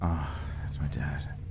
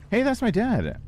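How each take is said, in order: First: It sounds embarrassed and let down. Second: It sounds proud and happy.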